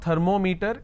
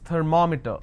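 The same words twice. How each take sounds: First: The stress falls away from the second syllable. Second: The stress falls on the second syllable. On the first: The speaker calls it wrong. "It's not thermometer" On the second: The speaker calls it right. "it's thermometer. So I will pronounce, or I will stress here, because meter itself has two syllables"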